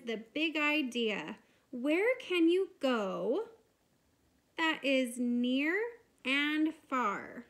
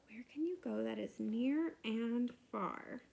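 First: Teacher reading a poem aloud. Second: Said in the usual way. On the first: Shown as a demonstration. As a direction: read it as a poem to children. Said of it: "And it says".

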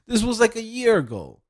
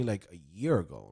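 First: High-pitched, insistent stress on "like, a year ago"; emphatic incredulity. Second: Said in the usual way. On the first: Real, not acted. Vlogger stressing how long ago he applied, emphatic and incredulous. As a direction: push "like, a year ago" way up high and louder, dropping at the end.

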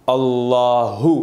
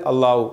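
First: अल्लाहु slow, with the final हु breathed from the throat; clear final ha. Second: अल्लाहु with the हु swallowed, like अल्लाउ; dropped ha. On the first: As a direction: stretch अल्लाहु, voicing हु clearly. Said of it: "हम कैसे पढ़ते थे?". (अल्लाहु धीरे, हु गले से) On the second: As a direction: say अल्लाहु carelessly, losing the ह. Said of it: "अल्लाहु नहीं". (गलत अल्लाहु, ह गायब) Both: Shown as a demonstration.

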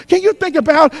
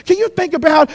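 The two takes are said the same way.

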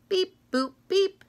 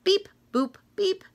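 No difference in how they are said.

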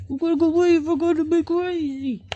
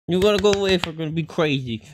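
First: Much higher, louder sing-song at the dog; squeaky pet voice. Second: Said in the usual way. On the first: Real, not acted. Repeats line in squeaky voice.

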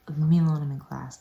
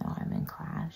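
First: Snapping, loud at the start; mock irritated outburst; retold snap. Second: Soft, half-whispered reminder; quiet imitation of a polite reminder; retold mild protest. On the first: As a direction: snap it, then drop off. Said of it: "like, snapped". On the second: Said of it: "I kept saying".

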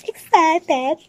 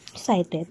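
First: Pitched high and louder, acting thrilled; excited. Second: Said in the usual way. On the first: Shown as a demonstration. Vlogger trying to sound excited for her viewers. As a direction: say it like you truly mean it.

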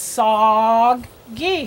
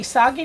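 First: Soggy split slowly into SOG, then GEE; slow, broken-up Soggy; word sounded out. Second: Said in the usual way. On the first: Shown as a demonstration. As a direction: sound out Soggy in two held parts. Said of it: "we're gonna do these words first".

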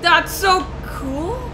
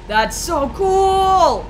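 First: High, slow, rising awe; excited. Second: High, slow, drawn-out squeal of delight; wide-eyed awe; excited squeal. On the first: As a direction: let it climb in wonder. Repeats reaction, different tune. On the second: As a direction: stretch the cool out in awe. Excited gamer reacting to game. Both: Real, not acted.

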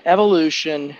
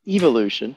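First: Said in the usual way. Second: "evolution" with a British "ee-volution", the first vowel like "ih"; lightly mimicking how a British speaker says "evolution"; imitating a British accent. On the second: Pastor mimics Kevin's British way of saying "evolution". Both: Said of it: "or as he says in his British accent".

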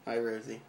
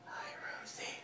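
First: Said in the usual way. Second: Soft whispered greeting; hushed hello to a pet spider. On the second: Pretend. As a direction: breathe it without voice.

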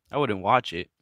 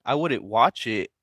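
First: Wouldn't stressed, falling at the end. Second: Said in the usual way. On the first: Shown as a demonstration. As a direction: lean on the word wouldn't.

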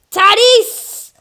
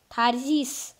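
First: Loud, much higher yell of "Tatis!"; shouted name. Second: Said in the usual way. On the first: Real, not acted. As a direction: bellow the name "Tatis!" at the screen. Name yelled louder.

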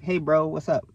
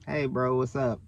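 First: Casual, upbeat bro greeting; easy, open hello to a bro; friendly stranger greeting. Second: Muted, noncommittal hello back; reluctant reply. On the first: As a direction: greet him like a chatty stranger. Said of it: "people be like". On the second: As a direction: answer with minimal enthusiasm. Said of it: "I'm like". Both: Retold or imitated.

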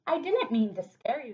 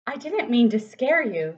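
First: Froggy with a grin. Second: Boris with a grin. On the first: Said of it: "said Froggy with a grin". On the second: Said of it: "said Boris with a grin". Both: Acted.

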